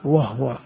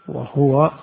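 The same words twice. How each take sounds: First: The h is followed by no vowel. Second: The h is followed by a short u vowel. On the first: "بسكون الهاء" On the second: "بضم الهاء"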